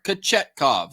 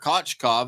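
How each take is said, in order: First: The surname is said with three syllables. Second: The surname is said with two syllables. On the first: The speaker calls it right. "That's not even that hard" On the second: The speaker calls it wrong. "I'm probably mispronouncing that"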